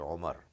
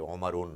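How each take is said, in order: First: The name ends without any 'n' sound. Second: The name ends with an extra 'un' sound. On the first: The speaker calls it right. "you say Omar" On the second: The speaker calls it wrong. "You don't say Omarun"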